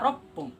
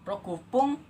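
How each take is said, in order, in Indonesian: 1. Angka disingkat menjadi ro. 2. Angka roku diucapkan secara lengkap. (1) "yang sebenarnya kita hanya membaca ropung" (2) "yang pada seharusnya roku kita baca rok rokupung"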